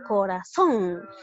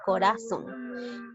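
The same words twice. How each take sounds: First: The stress is on the last syllable. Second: The stress is on the middle syllable. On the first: The speaker calls it right. "donde lleva la mayor fuerza de voz en la última sílaba" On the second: The speaker calls it wrong. "si yo lo hubiese leído como está tal y como está escrito no hubiese tenido sentido"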